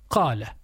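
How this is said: The word begins with a deep q sound. This is the classical pronunciation. The speaker calls it right. "proper classical Arabic is قالا"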